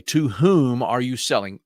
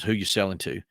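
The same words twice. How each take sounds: First: Said in the usual way. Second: Lightly put-on country boy accent, dropping the "are". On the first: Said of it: "so this is for Ms. Lolly". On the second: Shown as a demonstration. Speaker contrasts his country boy accent with proper grammar, rural American. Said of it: "my country boy accent says".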